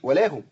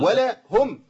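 First: The vowel is snatched short and run together. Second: The vowel is given its full length. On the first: The speaker calls it wrong. "ما اقولش ولاهم" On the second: The speaker calls it right. "خلاص ولاهم"

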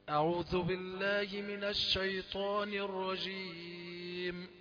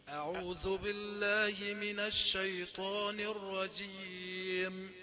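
The two takes are said the same way.

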